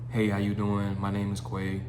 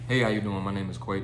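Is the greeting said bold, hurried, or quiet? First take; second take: quiet; bold. First: It is said quietly and flatly, like a robot. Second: It is said boldly and energetically from the chest. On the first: The speaker calls it wrong. "You sound quiet" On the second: The speaker calls it right. "Say it with your chest"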